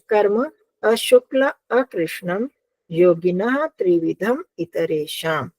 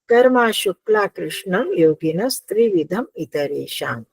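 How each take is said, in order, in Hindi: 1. शब्द अलग-अलग टुकड़ों में बँटे हुए हैं। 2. शब्द एक ही प्रवाह में जुड़े हुए हैं।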